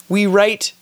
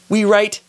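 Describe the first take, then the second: The two takes are said the same way.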